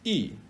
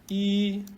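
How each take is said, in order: First: The syllable is said with the fourth tone. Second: The syllable is said with the first tone. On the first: "or four"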